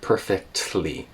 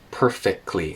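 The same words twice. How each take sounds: First: The T sound in the middle is pronounced. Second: The T sound in the middle is dropped. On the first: "instead of perfectly" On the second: "she's saying perfectly, perfectly instead of perfectly. There's no T there"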